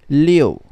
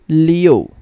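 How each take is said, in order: First: It is said with an o sound inside. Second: It is said with an o sound inside.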